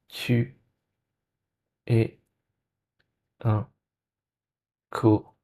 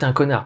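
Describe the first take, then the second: First: The phrase is said very slowly. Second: The phrase is said very quickly. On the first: The thought is slowed down to become aware of it. The speaker calls it right. "tu vas faire comme ça" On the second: The thought rushes by in the heat of the moment. The speaker calls it wrong. "très très vite"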